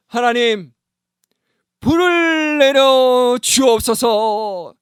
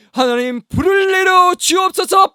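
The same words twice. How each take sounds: First: Higher, slow drawn-out plea to God; solemn prayer. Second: Much higher and louder, slow cry to God; shouted prayer. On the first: Elijah calling down fire, solemn and slow. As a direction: pray it long and grand. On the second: Elijah crying out for fire from heaven. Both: Retold or imitated.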